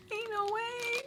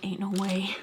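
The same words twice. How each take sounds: First: Much higher, softer squeaked Ain't no way; a high, squeaky comic repeat of Ain't no way; squeaky disbelief. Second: Said in the usual way. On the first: Acted. Squeaky repeat after laughing.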